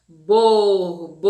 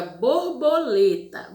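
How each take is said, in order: First: Borboleta with the syllable le held long and louder; stress on LE. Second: Said in the usual way. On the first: Shown as a demonstration. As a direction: stretch the le in Borboleta. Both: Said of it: "Onde a gente demorou mais aí".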